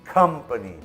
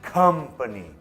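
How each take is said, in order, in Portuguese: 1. A primeira sílaba tem uma vogal 'uh' curta. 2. A primeira sílaba tem uma vogal 'uh' curta.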